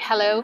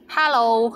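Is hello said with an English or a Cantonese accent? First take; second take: English; Cantonese. First: It is said with an English accent. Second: It is said with a Cantonese accent.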